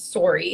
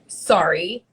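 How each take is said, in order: First: It is said with a Canadian O vowel. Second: It is said with a standard American vowel. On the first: The speaker calls it wrong. "instead of sorry" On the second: The speaker calls it right. "it is supposed to be sorry"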